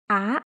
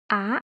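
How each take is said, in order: First: The pitch rises from middle to high. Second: The pitch rises from middle to high.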